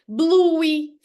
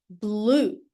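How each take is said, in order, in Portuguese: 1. A palavra termina com uma vogal 'ee' extra. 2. A palavra termina sem nenhuma vogal extra. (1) "não pode acontecer" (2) "risquem esse E"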